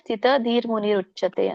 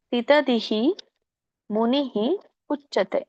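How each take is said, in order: First: The words are joined, with r sounds linking them. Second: The three words are said separately, each ending in hi.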